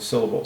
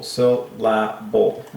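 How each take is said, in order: First: Said in the usual way. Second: "Syllable" drawn out slowly in three separate beats. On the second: Shown as a demonstration. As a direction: split "Syllable" into sil, la, bull. Breaks the word into its syllables.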